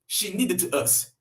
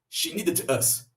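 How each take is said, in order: The two takes are said the same way.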